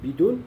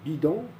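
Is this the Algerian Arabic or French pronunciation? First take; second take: Algerian Arabic; French. First: It has the Algerian Arabic pronunciation. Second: It has the standard French pronunciation. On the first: "en Algérie, on dit bidoun" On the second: "on dit euh, par exemple euh, bidon"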